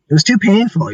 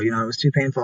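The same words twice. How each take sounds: First: Too said high and loud, painful pressed out; emphatic too painful. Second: Said in the usual way. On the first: Real, not acted. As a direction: stress on too, raised and louder. Repeats painful time, first emphatic.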